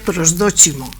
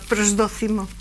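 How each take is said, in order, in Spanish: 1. La c se pronuncia como ch, al estilo italiano. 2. La c se pronuncia al estilo español, no como ch. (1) "la C en italiano se pronuncia ch, eso que sería prosdóximo" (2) "como estamos en España ... prosdócimo"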